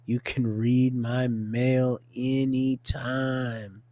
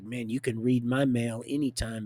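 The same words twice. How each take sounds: First: "read my mail anytime" drawn right out; half speed, savoring every word; slow emphatic repeat. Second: Said in the usual way. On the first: Acted. Repeats the quote slowly for emphasis.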